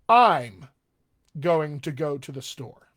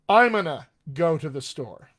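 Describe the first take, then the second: First: Words are slightly contracted, with mild reduction. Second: Words are strongly reduced and run together. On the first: "drift it over a little more informal" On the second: "A little more"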